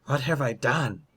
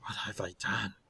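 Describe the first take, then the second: First: Voiced anguish, pitch pushed up; anguished realization. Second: Very soft, stunned murmur; hushed horror. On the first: Werewolf seeing blood on his hands, anguished. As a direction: cry it out in horror at yourself. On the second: Acted. Werewolf seeing blood on his hands, hushed and horrified. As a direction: say it under the breath, appalled. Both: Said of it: "and Plim says".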